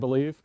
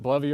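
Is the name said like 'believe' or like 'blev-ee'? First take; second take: believe; blev-ee. First: The name is said like the word 'believe'. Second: The name is said like 'blev-ee'. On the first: "I thought it was pronounced believe" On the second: "I pronounce it Blovy"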